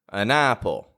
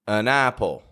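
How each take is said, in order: Both takes have the same delivery.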